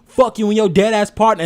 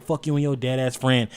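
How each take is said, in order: First: Loud, high yelled rap line; mock scream. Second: Said in the usual way. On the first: Retelling a rapper screaming the line, loud mock yell. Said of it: "he literally screams". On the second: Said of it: "he's like".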